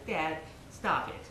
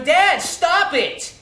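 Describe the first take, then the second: First: Softer, slow murmured request; a son quietly asking his father to stop; quiet plea. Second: Much higher, louder, slow cry of stop it; a son telling his father to stop, in a retold outburst; angry plea. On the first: Retold or imitated. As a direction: say it under your breath to dad. Son's first quiet request. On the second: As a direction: drag it out, pleading and loud. Son begs father at dinner.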